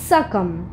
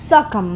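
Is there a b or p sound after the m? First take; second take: no; no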